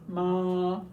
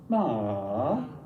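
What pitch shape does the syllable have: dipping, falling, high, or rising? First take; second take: high; dipping. First: The pitch stays high and level. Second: The pitch dips low then comes back up. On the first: "a high tone" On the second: "a dipping tone"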